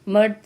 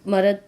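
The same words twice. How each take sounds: First: It is said in the standard pronunciation. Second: It is said in the village dialect pronunciation. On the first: "पहले वाले जो शब्द हैं वो आपके जो है तत्सम शब्द" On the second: "दूसरा उसका परिवर्तित रूप है"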